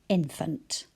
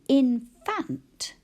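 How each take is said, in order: First: The word is said in a relaxed, natural way. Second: Every sound in the word is said fully. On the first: This is the way to say it when reading. "when we're reading, we'd probably say infant" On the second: This is the way to say it when spelling. "we say infant to ourselves when we're spelling"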